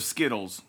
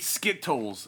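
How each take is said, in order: First: The middle consonant sounds like a soft D. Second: The middle consonant is a crisp T sound.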